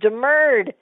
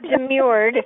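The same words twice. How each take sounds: First: The middle vowel sounds like the vowel in 'fur'. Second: The middle vowel sounds like the vowel in 'pure'. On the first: The speaker calls it right. "It's demurred" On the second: The speaker calls it wrong. "It's not demurred"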